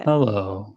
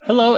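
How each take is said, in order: First: It is said in a sad, somber way. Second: It is said strongly and brightly.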